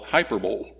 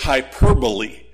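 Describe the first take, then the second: First: The word ends like 'bowl', with three syllables. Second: The word ends like 'bolee', with four syllables. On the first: The speaker calls it wrong. "some who don't know how to pronounce that call it hyperbole. Don't do that" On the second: The speaker calls it right. "It's hyperbole"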